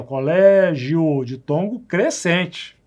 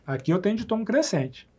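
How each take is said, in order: First: Slow demo. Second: Said in the usual way. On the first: Shown as a demonstration. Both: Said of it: "aqui sim eu tenho de tom crescente".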